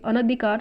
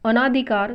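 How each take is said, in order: First: अनधिकार with short "na"; short a after n in अनधिकार; correct form. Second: अनाधिकार with long "naa"; long aa after n in अनाधिकार; wrong form. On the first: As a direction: say अनधिकार as a-na-dhi-KAAR. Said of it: "शुद्ध". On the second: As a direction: say अनाधिकार as a-NAA-dhi-kaar. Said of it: "यह अशुद्ध है". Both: Shown as a demonstration.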